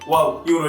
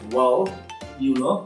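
First: It is rattled off flatly, like memorized lines. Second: It is acted out expressively, as if thinking. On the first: The speaker is reciting memorized phrases. The speaker calls it wrong. "এভাবে বলা যাবে না, তাহলে সে ধরে নেবে যে আপনি মুখস্থ কথা বলছেন।" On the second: The speaker is genuinely thinking about the answer. The speaker calls it right. "আপনাকে একটু নাটক করতে হবে।"

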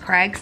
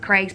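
First: The name is said the local way. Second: The name is said the British way. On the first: "but here it's pronounced Craig's" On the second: "in the UK, we pronounce it Craig's"

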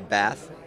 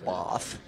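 First: It is said in the speaker's own Australian accent. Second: It is said imitating Richard's English accent.

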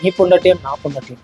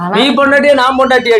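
First: The question is said in an affectionate tone. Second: The question is said in a harsh tone.

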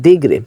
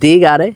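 First: The word is said with two syllables. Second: The word is said with three syllables. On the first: The speaker calls it right. "অনেকে বলে দিগরে" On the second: The speaker calls it wrong. "অনেকে বলে দি গারে"

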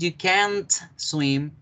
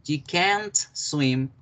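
Both takes have the same delivery.

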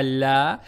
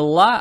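First: The vowel is fronted with a slight 'e' shade. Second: The vowel is a plain open 'a'. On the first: The speaker calls it right. "а ля; с оттенком я" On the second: The speaker calls it wrong. "не ла"

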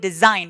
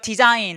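First: The middle consonant is a buzzing z sound. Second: The middle consonant is a hissing s sound. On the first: The speaker calls it right. "design 이렇게 Z 발음이 나니까" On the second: The speaker calls it wrong. "디자인 아니고"

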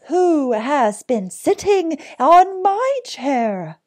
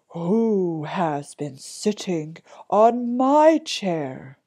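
First: It is said in a medium-sized voice. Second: It is said in a big, deep voice.

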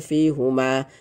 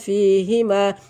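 First: The vowel after h is u. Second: The vowel after h is i. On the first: The speaker calls it wrong. "tidak dibaca fihuma karena sebelumnya ya" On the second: The speaker calls it right. "fihima dibaca fihima"

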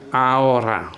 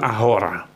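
First: The h is silent. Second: The h is pronounced. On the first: The speaker calls it right. "huruf H itu ya tidak diucapkan" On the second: The speaker calls it wrong. "bukan ahora"

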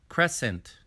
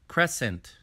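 No difference in how they are said.

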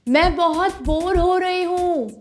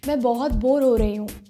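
First: It is said at a high pitch. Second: It is said at a medium pitch.

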